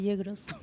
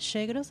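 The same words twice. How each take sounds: First: It starts with a 'y' sound, as elsewhere. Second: It starts with a 'sh' sound, Buenos Aires style.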